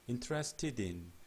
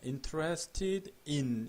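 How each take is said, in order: First: The final d runs straight into in. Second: The two words are said separately, not joined. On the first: The speaker calls it right. "ted in 이렇게 발음이 되는 거죠" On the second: The speaker calls it wrong. "interested in 이렇게 발음 안 해요"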